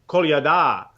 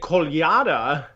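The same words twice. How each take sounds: First: The stress is on the last syllable. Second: The stress is not on the last syllable. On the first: "if you put the stress on the last syllable, you'll pronounce it right" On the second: "So I always say Kolyada"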